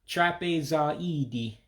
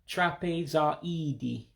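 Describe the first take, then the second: The two takes are said the same way.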